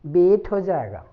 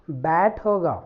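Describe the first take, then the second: First: बेट with a closed "ay" vowel; बेट, the mistaken vowel from the letter name; letter-name misreading. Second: बैट with an open "a" as in "cat"; बैट, short b and open vowel; correct phonic reading. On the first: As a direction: say बेट like "bait" in place of "bat". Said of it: "ना कि बी बोलेंगे". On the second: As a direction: say बैट as English "bat". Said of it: "अगर हम ब बोलेंगे". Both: Shown as a demonstration.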